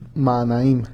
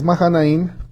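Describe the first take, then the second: First: No h sound is heard in the middle. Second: An h sound is heard in the middle. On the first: "en español no tiene la H de pronunciación" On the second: "Tiene H aquí"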